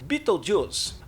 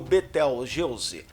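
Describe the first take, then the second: First: The name is said with an English pronunciation. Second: The name is said with a Portuguese pronunciation. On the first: "como se diz em inglês" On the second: "é algo como Betelgeuse"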